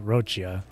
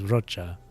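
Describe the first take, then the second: First: The name ends with a 'chia' sound. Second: The name ends with a plain 'cha' sound. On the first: The speaker calls it wrong. "not Rochia" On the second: The speaker calls it right. "I think her name is Rocha"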